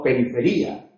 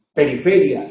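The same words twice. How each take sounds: First: "periferia" stressed on the "ri", as in the error; "periferia" as the error to avoid, stress on the "ri"; wrong stress. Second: "Periferia" as the correct form, stress on the "fe". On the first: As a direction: give "periferia" the mistaken stress on the "ri". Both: Shown as a demonstration. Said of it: "no periferia".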